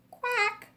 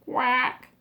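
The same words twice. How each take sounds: First: Higher quack; a bright duck quack; mother duck quack. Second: Mother duck quack. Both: Acted. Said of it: "says the mother duck".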